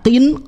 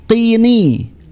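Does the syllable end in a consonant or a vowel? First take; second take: consonant; vowel. First: The syllable ends on the n sound. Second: An added i vowel follows the n sound. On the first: This is the form before linking. "yang asalnya qin" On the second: This is the form joined to the next word. "menjadi qini"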